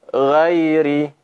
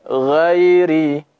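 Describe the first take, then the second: The two takes are said the same way.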